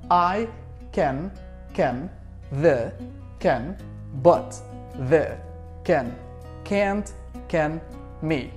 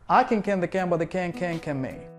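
First: The phrase is said at a slow pace. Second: The phrase is said at a fast pace.

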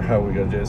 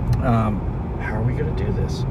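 First: The line is said flat, without expression. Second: The line is said with lively expression. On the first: The speaker calls it wrong. "And it's flat" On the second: The speaker calls it right. "And that's what you want him to do"

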